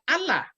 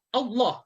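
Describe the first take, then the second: First: The L is light and thin, lips spread. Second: The L is heavy and thick, lips rounded. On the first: The speaker calls it wrong. "jangan Allah. Salah" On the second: The speaker calls it right. "seolah-olah monyong sedikit ke depan sambil suara Allah, kuat"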